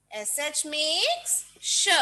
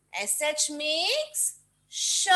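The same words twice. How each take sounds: First: S H makes sh, said slowly with a clear sh; slow sound demo. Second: एस एच makes sh, with the sh said clearly; sound demo. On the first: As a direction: repeat it slowly for kids. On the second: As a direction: state the sh sound plainly. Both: Shown as a demonstration. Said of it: "किसकी sound आएगी".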